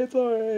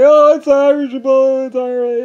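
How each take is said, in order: First: High put-on voice dropping softer; fading put-on voice. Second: High, loud put-on voice, slow on it's all right; mock reassuring voice. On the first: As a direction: let the fake reassurance fade off. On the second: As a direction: fake a breezy all-is-well. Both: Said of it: "they would say".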